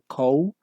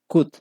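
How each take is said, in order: First: The vowel is a wide 'ow' sound. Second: The vowel is a short 'oo' sound. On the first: The speaker calls it wrong. "uno no dice cow" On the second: The speaker calls it right. "Esa sería la pronunciación correcta"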